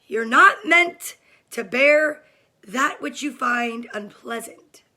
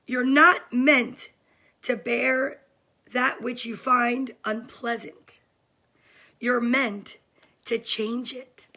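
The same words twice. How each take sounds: First: Slow reread with not leaned on hard; rereading the quote for emphasis, leaning on "not"; emphatic reread. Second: Slow, weighty read of a quote; reading a favourite book's line to viewers, slow and deliberate; reading aloud. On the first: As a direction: stress "not" and let it land. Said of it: "I'm gonna read it again". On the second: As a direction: read it slowly like a mantra. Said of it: "Are you guys ready to hear it?". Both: Real, not acted.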